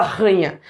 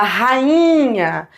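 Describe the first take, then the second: First: RANHA quick, low, in two syllables; wrong diphthong. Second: RAINHA with a long, separate stressed I; correct hiatus. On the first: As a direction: squash RANHA so the i disappears. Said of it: "Você não fala ranha". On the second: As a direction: hold the I of RAINHA as its own syllable. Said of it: "você fala rainha". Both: Shown as a demonstration.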